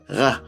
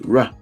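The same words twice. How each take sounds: First: The R sound is made in the throat. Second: The R sound is made at the lips. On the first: "in Creole it's from the throat" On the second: "in English it comes from the lips"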